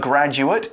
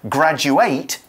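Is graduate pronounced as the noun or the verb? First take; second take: noun; verb. First: It is pronounced the way the noun is. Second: It is pronounced the way the verb is. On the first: A person who finished their studies. "a graduate is a person" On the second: To finish school and get a degree. "finish school and pass all the exams to get your degree"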